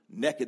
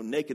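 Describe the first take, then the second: First: It is said with a Southern Texas pronunciation. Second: It is said with a standard pronunciation. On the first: The person has no clothes on and is up to mischief. "Naked means you have no clothes on and you're up to something" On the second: The person has no clothes on. "naked means you have no clothes on"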